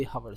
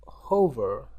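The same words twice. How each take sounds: First: "hover" said as huh-ver with a short uh vowel; corrected hover. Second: "hover" said as hoh-ver with a long o and a rolled-back r; Indian accent hover. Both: Shown as a demonstration. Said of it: "sorry about that, about my Indian accent".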